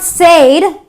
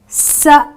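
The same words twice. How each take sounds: First: The vowel is a long 'ay' sound. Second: The vowel is a short 'eh' sound. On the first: The speaker calls it wrong. "it's not said" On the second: The speaker calls it right. "I pronounce the word using the eh, the short E vowel sound"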